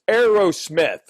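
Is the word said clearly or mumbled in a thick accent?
clearly. The word is clearly enunciated without a thick accent. Someone else corrects the pronunciation. The speaker calls it right. "He goes, it's Aerosmith"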